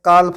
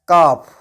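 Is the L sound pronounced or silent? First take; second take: pronounced; silent. First: The L sound is pronounced. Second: The L sound is silent. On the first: The speaker calls it wrong. "इस word को मैंने काल्फ नहीं पढ़ा है" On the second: The speaker calls it right. "इस word को मैंने पढ़ा है काफ"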